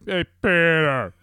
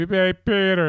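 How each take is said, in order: First: Slow, drawn-out higher call; kids' echoed call. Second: Loud, high mock call; catchphrase call. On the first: Retold or imitated. Kids echoing dad from the bedroom, drawn-out call. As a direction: stretch it out like an answering holler. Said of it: "out of the bedroom, I just hear". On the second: Dad calling catchphrase to kids in their room, mock call. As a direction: toss it out as a holler. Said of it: "I'll just say".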